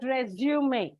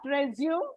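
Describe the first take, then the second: First: The word ends in an 'ay' sound. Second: The word ends in an 'oom' sound. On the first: A short job application document. The speaker calls it right. "but resume" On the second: The verb meaning to continue after an interruption. The speaker calls it wrong. "It is not resume"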